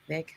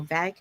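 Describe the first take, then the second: First: "vague" with an AY vowel and hard G; retry "vague" softly as "vayg"; alternative pronunciation. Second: "vague" with a short open A, as in "vack"; unsure pronunciation. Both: Shown as a demonstration. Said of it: "I don't know how you pronounce".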